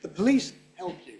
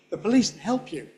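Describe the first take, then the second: First: "police help" with no can at all; silent can. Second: "police help", can fully gone; silent can again. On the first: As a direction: skip the can entirely. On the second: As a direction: drop the can. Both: Shown as a demonstration. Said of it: "Native speakers are going to hear that as can".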